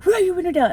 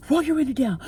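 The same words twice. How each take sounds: First: Much higher, louder imitated shout; retold escalating yell at another driver; father yelling harder. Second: Higher, imitated angry demand; retold yell through the car window; father yelling. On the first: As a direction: push the order up into a full yell. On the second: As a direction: bark the order like the furious driver. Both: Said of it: "start yelling at me".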